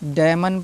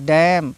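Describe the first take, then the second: First: A final n sound follows the m. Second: It ends on m with no n sound. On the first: The speaker calls it wrong. "But हमको ऐसा नहीं करना है" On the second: The speaker calls it right. "एन silent हो जाता है"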